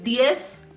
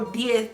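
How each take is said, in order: First: The word ends with an s sound. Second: The word ends with a th sound. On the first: The word is said on its own. "they're saying it with an S when it's a word that's by itself" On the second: The word is said inside a full sentence. "more of a T H when it's in a sentence"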